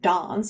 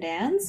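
First: It is said with a British accent. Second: It is said with a North American accent.

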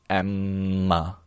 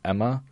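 First: The M sound in the middle is drawn out. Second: The M sound in the middle is short.

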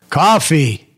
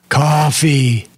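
First: It is said at the loudest level. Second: It is said louder than before.

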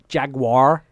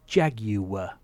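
First: The word is said with two syllables. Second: The word is said with three syllables. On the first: The speaker calls it wrong. "Not Jaguar" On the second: The speaker calls it right. "It's three syllables"

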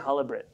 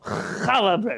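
First: The first sound is a plain, soft h. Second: The first sound is a rough, throaty h. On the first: This is the everyday American way of saying it. The speaker calls it wrong. "even the American in the grocery store, they say challah bread" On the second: This is the letter pronounced properly. The speaker calls it right. "if they push themselves, they can go challah bread"

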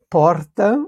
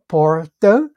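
First: It has the speaker's own strong São Paulo R. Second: It has a rural caipira-style R.

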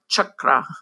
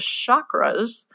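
First: It is said closer to the Sanskrit pronunciation. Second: It is said with a French-like New Age pronunciation. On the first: The speaker calls it right. "which is pronounced more like chakra" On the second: The speaker calls it wrong. "which was a mispronunciation of the word"

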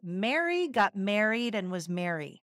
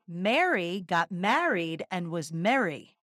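First: The words are said in a Midwestern accent. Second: The words are said in a Philadelphia accent. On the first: "in the Midwest" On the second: "In Philly"

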